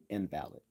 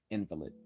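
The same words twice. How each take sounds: First: "invalid" with the stress on VAL, as for a failed argument; stress on second syllable. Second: "invalid" with the stress on IN, as for a sick person; stress on first syllable. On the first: Teacher demonstrating the word for a failed argument, "invalid" stressed on VAL. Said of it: "when we accent the second syllable". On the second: Teacher demonstrating the word for a sick person, "invalid" stressed on IN. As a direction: hit the first syllable of "invalid": IN-vuh-lid. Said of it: "when we accent the first syllable". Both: Shown as a demonstration.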